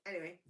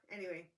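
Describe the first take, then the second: No difference in how they are said.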